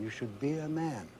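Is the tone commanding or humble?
humble. It is said in a soft, humble tone. It is a modest call to be a decent person. The speaker calls it right. "It has to be a humble tone"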